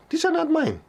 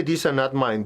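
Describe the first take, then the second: First: These are not mine said high and firm; firm declaration. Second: Said in the usual way. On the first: Shown as a demonstration. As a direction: claim it with conviction. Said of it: "I'm not gonna own it". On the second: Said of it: "So as you say".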